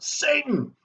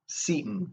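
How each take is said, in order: First: The first vowel sounds like 'say'. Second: The first vowel sounds like 'see'. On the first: "I like to pronounce it Satan" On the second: "a character named um, Seaton"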